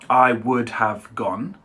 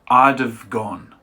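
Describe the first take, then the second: First: Every word is said fully and separately. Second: The words are blended together and shortened.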